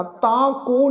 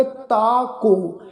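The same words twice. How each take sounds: First: ਤਾ ਕੋ with a nasal vowel from the bindi; incorrect nasal reading. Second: ਤਾ ਕੋ with clean oral vowels, no nasal; pronunciation without bindi. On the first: Teacher shows what to avoid, ਤਾ ਕੋ nasalised. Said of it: "ਬਿੰਦੀ ਸਹਿਤ ਉਚਾਰਨ ਨਹੀਂ ਕਰਨਾ". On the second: Teacher models the right way, ਤਾ ਕੋ without nasal. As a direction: draw out ਤਾ ਕੋ slowly, un-nasalised. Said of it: "ਬਿੰਦੀ ਰਹਿਤ ਉਚਾਰਨ ਕਰਨਾ ਹੈ". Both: Shown as a demonstration.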